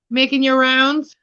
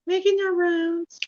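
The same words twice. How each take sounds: First: Said in the usual way. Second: Higher, softer, slower pet talk; cooing to a cat. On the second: Real, not acted. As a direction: coo it sweetly to the cat. Coos to cat Hildy.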